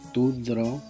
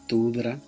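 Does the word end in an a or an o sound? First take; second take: o; a. First: The word ends in an o sound. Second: The word ends in an a sound. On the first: The speaker calls it right. "Se pronuncia tudro" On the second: The speaker calls it wrong. "por eso no se pronuncia así"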